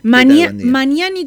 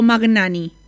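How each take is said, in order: First: The middle consonants sound like a single ñ. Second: The middle consonants sound like separate g and n.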